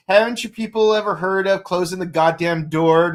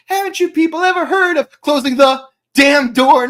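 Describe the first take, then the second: First: Said in the usual way. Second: Damn hit hard, higher and louder; emphasis on damn. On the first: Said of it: "you could say". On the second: Shown as a demonstration. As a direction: lean into damn. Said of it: "it's like".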